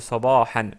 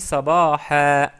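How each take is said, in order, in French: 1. Le mot se termine par un son n final. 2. Le mot se termine par une voyelle, sans n. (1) "au lieu de sabahan" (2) "J'ai dit sabaha"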